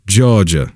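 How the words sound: The R sound in the middle is dropped. "No R"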